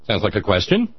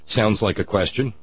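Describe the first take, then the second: First: The voice rises at the end. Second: The voice falls at the end.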